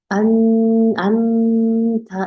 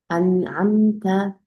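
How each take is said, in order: First: The first part is held overly long. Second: The word is held briefly, then moves on. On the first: The speaker calls it wrong. "이렇게 길게도 주시면 안 돼요" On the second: The speaker calls it right. "정확하게 발음해 주시고 넘어가 주시는 게"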